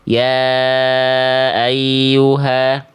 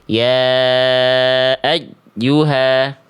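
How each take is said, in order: First: The doubled y is flat with no stress. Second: The doubled y is overstressed and broken off. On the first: "terlalu lempeng, nggak ada penekanan" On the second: "bunyinya terputus di pilihan A"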